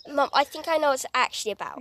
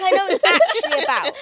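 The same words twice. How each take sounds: First: Said in the usual way. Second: Laughing. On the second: Real, not acted.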